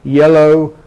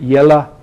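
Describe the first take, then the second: First: The final vowel is a full oh sound. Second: The final vowel is a weak uh sound. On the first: "it doesn't happen in R P" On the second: "in American and some English dialects you get yella"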